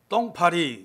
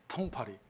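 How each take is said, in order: First: The first sound is tense and unaspirated. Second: The first sound is breathy and aspirated. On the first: The speaker calls it right. "아빠가 말하는 대로" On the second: The speaker calls it wrong. "똥파리를 못해요"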